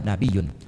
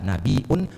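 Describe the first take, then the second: First: A y sound replaces the glottal stop. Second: A glottal stop comes before the final vowel. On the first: "boleh tanpa hamzah" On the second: "boleh dengan hamzah"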